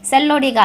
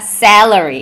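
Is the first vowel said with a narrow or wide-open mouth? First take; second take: narrow; wide. First: The first vowel is small, Korean-style 'e'. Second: The first vowel is big, open and exaggerated. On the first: The speaker calls it wrong. "한국 발음의 에 발음" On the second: The speaker calls it right. "더 우악스럽고 더 입을 크게 벌려서"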